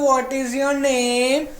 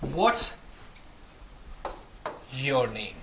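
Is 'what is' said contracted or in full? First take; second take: full; contracted. First: 'What is' is said as two full words. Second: 'What is' is shortened to one syllable, 'what's'.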